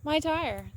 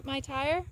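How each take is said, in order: First: My pressed higher and falling, tire dropped; exasperated, landing on My; stress on my. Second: My tire? with tire rising as a question; stress on tire. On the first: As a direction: hit the word My with dismay. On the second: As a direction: lift the word tire like asking. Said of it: "can you see this in my". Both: Real, not acted.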